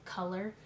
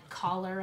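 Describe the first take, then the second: First: Color said the normal way; standard color. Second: Collar said like the collar on a shirt; collar for color. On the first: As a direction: say color plainly. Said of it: "but it's color". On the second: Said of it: "They say it like collar on your shirt". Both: Shown as a demonstration.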